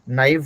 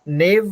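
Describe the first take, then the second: First: It is two syllables, 'nah' then 'eev'. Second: It is one syllable, like 'nave'. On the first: The speaker calls it right. "नाइव होगा" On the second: The speaker calls it wrong. "नेव नहीं होगा"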